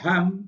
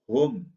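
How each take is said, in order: First: The vowel sounds like the one in 'ham'. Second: The vowel sounds like the one in 'home'. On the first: The speaker calls it wrong. "ini dibaca tidak ham" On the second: The speaker calls it right. "tapi home"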